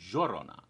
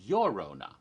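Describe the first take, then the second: First: The word begins with a J sound. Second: The word begins with a Y sound. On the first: "it becomes more of a J sound" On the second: "it's usually pronounced as a Y. So it would be Llorona"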